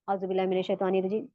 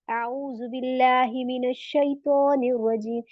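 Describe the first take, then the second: First: It is recited flatly, without feeling. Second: It is recited thoughtfully, with feeling.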